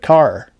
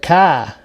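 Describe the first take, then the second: First: It is said in a general American accent. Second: It is said in a Massachusetts accent.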